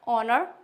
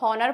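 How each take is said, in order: First: The starting h sound is silent. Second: The starting h sound is pronounced. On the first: The speaker calls it right. "हमारा एच silent होता है" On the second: The speaker calls it wrong. "क्या हम इसको हॉनर पढ़ते हैं"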